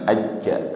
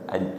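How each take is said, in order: First: The final consonant is doubled and held. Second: The final consonant is short with a light bounce. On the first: The speaker calls it wrong. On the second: The speaker calls it right.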